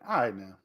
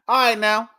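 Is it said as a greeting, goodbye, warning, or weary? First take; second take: weary; goodbye. First: It sounds tired and wanting to end. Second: It sounds like a casual goodbye.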